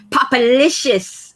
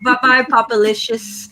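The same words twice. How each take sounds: First: Savoring the name. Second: Said in the usual way. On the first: Real, not acted. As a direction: stretch Popalicious out slowly, relishing each syllable. Savoring a viewer's new name.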